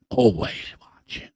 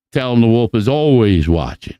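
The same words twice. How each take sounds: First: Much softer, trailing ominous always watching; spooky echo. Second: Said in the usual way. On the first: Real, not acted. Wolf sends a message to the kids, soft ominous echo. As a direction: let always watching fade out like a threat.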